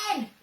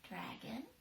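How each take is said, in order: First: The word is yelled very loudly. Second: The word is whispered very softly. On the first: "she yelled at the top of her voice" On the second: "she whispered into it"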